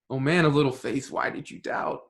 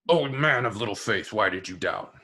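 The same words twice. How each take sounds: First: It is said in a gentle, encouraging tone. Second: It is said in a harsh, scolding tone.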